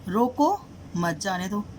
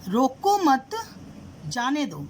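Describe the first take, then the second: First: The pause comes after रोको. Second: The pause comes after मत.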